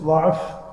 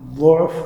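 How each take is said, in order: First: The first vowel is an open a sound. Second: The first vowel is a rounded u sound. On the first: This is the reading of the Banu Tamim dialect. "ضعف لغة بني تميم" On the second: This is the reading of the Quraysh dialect. "قريش يقرؤون بالضم أو ينطقون بالضم، ضعف هذه لغة قريش"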